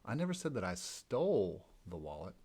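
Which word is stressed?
stole. The stress is on "stole".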